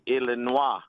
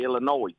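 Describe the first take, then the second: First: It is said with a French pronunciation. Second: It is said with a Southern Alabama pronunciation. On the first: "If we were going to pronounce it in French" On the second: "if we're from Alabama"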